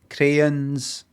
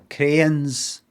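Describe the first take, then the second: No difference in how they are said.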